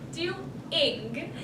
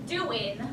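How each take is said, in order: First: The final g sound is pronounced. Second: The final g sound is dropped. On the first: The speaker calls it right. "I say doing" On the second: The speaker calls it wrong. "instead of saying doing, like you say"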